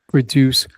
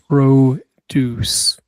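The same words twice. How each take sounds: First: The stress is on the second syllable. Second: The stress is on the first syllable. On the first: It is a verb meaning to create. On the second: It is a noun meaning fresh fruits and vegetables.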